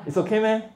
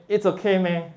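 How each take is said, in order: First: "It's okay meh" said high with a laugh, "meh" lifted in disbelief; incredulous meh. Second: Rising questioning tune on "meh", a bit higher; doubtful meh. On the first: Teacher repeats meh for students, laughing disbelief. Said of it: "It's not okay". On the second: Teacher demos Singlish meh to the class, questioning. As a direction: ask "It's okay meh" as if doubting. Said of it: "these all mean completely different things". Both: Shown as a demonstration.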